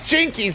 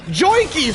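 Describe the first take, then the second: First: The first vowel sounds like 'ih'. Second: The first vowel sounds like 'oy'. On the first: The speaker calls it right. "It's Jinkies" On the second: The speaker calls it wrong. "not Joinkies"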